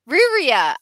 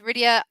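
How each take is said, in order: First: The middle consonant is an R sound. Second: The middle consonant is a D sound. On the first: The speaker calls it right. "Oh, what is it? Ryria" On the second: The speaker calls it wrong. "I always say Rydia"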